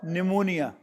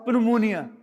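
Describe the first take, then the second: First: The initial P sound is silent. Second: The initial P sound is pronounced. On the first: The speaker calls it right. "You pronounce as pneumonia" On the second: The speaker calls it wrong. "But you don't pronounce as pneumonia"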